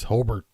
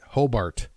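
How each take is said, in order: First: The name is said in the local way. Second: The name is said just as it is spelled. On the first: The speaker is from the area. "if you're from the area, it's pronounced Hobart" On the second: The speaker is not from the area. "if you read it out, that's how it sounds like"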